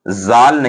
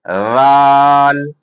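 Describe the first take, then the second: First: The first consonant is said with a whistling hiss. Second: The first consonant is said without any whistling hiss. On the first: The speaker calls it wrong. "ये जाल नहीं है" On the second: The speaker calls it right. "बल्कि राल"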